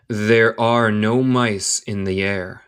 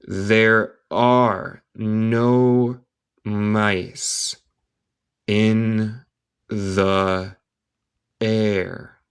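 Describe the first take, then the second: First: Slow, measured, words joined together; slow connected reading. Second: Very slow, each word held and separated; word-by-word dictation. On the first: Teacher repeating the line for learners, slow and connected. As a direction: say the whole sentence slowly for learners. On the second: Teacher reading a line to English learners, word by word. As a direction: leave a gap after each word. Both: Shown as a demonstration.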